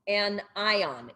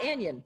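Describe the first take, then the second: First: It is split into two separate words. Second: It is run together as a single word. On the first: The speaker calls it right. "It's two words" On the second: The speaker calls it wrong. "it's not anion"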